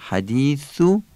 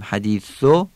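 First: حدیثو ending in a short Arabic "u"; classical damma. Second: حدیثو ending in a Persian "o"; Persian-style damma. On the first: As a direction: say حدیثو as "hadithu" with a pure "u". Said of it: "حدیثو فصیحه". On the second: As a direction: say حدیثو as "hadiso". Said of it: "حدیثو فارسیه". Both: Shown as a demonstration.

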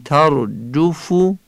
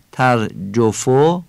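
First: "ترجفو" with short Arabic u vowels; Arabic accent. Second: "ترجفو" with Persian o vowels; Persian accent. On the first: Teacher shows the correct tone, Arabic accent. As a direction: say "ترجفو" in careful Arabic pronunciation. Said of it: "این لحن عربیه". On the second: Teacher shows the tone to avoid, Persian accent. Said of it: "این فارسیه". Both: Shown as a demonstration.

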